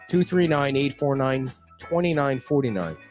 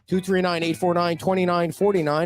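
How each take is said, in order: First: The number is read at a slower pace. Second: The number is read at a fast pace. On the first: "I'll say it slower" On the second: "If I said that too fast"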